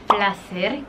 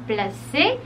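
First: "placer" with sounded final r; Spanish "placer", pla-SER; Spanish pronunciation. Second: "placer" as pla-SAY, r silent; French "placer", ending on a closed e; French pronunciation. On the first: Teacher gives the pleasure word, Spanish pronunciation. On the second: Teacher shows the French verb, French pronunciation. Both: Shown as a demonstration. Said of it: "En francés se pronuncia".

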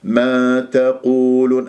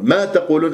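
First: ما تقولون slow and even, no punch on ما; relative ma. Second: ما تقولون with ما raised and stressed; mistaken negating ma. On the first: Teacher shows the meaning "that which", even recitation. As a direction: glide from ما into تقولون unstressed. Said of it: "هذه ميم موصولة". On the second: Teacher shows the mistake, stress on ما. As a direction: lean on ما as "not". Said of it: "حتى تجعلها نافية". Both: Shown as a demonstration.

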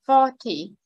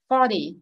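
First: Forty as FOR-tee with a crisp T; Forty with a true T, falling off; first-syllable stress, clear T. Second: Forty said as FOR-dee; Forty with an American tapped D. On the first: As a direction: stress the start of Forty and keep the T. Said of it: "nhấn trọng âm số một". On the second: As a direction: soften the T in Forty to a D. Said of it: "chữ T đây mình chuyển chữ D". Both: Shown as a demonstration.

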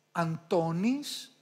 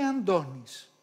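First: "Αντώνης" with separate n and hard t; spelling pronunciation. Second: "Αντώνης" with a voiced nd, an-do-nis; correct nd pronunciation. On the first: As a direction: say "Αντώνης" as written, an-to-nis. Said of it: "Γράφουμε". («Αντώνης» με καθαρό νι-ταφ) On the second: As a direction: say "Αντώνης" with d in place of t. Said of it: "και προφέρουμε". («Αντώνης» με νι-ντ) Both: Shown as a demonstration.

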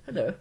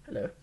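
First: Posh hello. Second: Said in the usual way. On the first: Shown as a demonstration. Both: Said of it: "I sound like a posh person".

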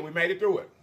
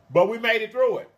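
First: Said in the usual way. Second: Higher and louder, triumphant; emphatic. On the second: Real, not acted. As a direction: proclaim it proudly.

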